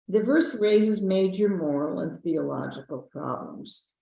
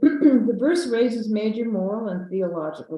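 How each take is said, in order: First: It is read slowly. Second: It is read fast.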